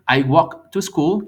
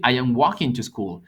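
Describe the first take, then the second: First: Slow and loud, each word laid out; slow model sentence. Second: Said in the usual way. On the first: Shown as a demonstration. Teacher contrasting tenses, slow careful model. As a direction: spell it out for the class slowly. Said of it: "No es lo mismo decir". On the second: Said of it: "que decir".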